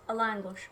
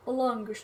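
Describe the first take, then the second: First: Said in the usual way. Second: Langosh in an accent, rounded LON-gush. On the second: Real, not acted. Host slips into it while presenting the dish, with an accent. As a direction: put an accent on langosh, first vowel like "lon". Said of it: "that was with an accent".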